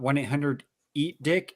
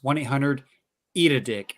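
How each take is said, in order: First: Said in the usual way. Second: "eat a dick" set apart after a short pause; pause, then spell out "eat a dick" with the "a" in; corrected wording. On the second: Shown as a demonstration. Caller corrects the phone number, setting "eat a dick" apart. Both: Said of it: "there's an A in there".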